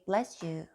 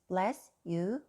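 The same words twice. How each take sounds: First: The final sound links into the next word. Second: The two words are said separately without linking. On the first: The speaker calls it right. "you just say" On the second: The speaker calls it wrong. "You don't say this"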